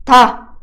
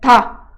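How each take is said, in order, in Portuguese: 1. A consoante é um som seco e nítido, parecido com t. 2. A consoante é um som seco e nítido, parecido com t.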